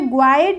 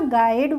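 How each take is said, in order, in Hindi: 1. g के बाद w की आवाज़ आती है। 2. g के बाद w की आवाज़ नहीं आती। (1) "ग्वाइड नहीं बोला" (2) "गाइड बोला"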